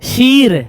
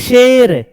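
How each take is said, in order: First: The vowel is a long drawn-out 'ee'. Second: The vowel is a short unstretched 'ay'. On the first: The speaker calls it wrong. "शीर ने शेर" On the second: The speaker calls it right. "इसको बोलेंगे शेर"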